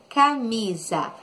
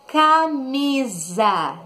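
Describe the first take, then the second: First: Said in the usual way. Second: Camisa drawn out very slowly, syllable by syllable; slow syllable stress. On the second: Shown as a demonstration. Teacher announcing the last word to pupils, slow and drawn out. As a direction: stretch every syllable of camisa. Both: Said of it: "E a última palavra".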